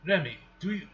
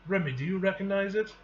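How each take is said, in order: First: Put-on slipping into a Russian accent; accidental Russian accent. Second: Said in the usual way. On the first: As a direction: read it with a stray Russian accent. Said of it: "doing a Russian accent". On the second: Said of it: "doing a Russian accent? He's not Russian".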